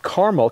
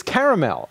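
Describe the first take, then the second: First: Carmel said as "CAR-mul"; two-syllable Carmel. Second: Caramel insisted on as "CARE-uh-mel"; caramel with its middle A, "CARE-uh-mel"; three-syllable caramel. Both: Shown as a demonstration. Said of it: "There's an A in there after the R".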